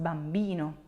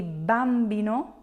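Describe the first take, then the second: First: Bambino with the second-to-last syllable lengthened: bam-BI-no; stress on BI. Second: Bambino with the first syllable punched: BAM-bino; stress on BAM. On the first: Teacher gives learners the correct accent, bambino stressed on BI. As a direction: land firmly on BI in bambino. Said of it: "on the second to last". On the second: Teacher shows what you're not gonna say, bambino stressed on BAM. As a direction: wrongly hit BAM at the start of bambino. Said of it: "accent is not on the first". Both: Shown as a demonstration.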